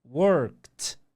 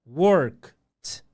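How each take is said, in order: The two takes are said the same way.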